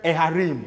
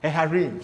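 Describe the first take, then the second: Both takes have the same delivery.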